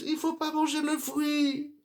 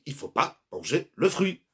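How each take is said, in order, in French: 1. Il est dit sur un ton désinvolte et dédaigneux. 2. Il est dit sur un ton ferme et sérieux.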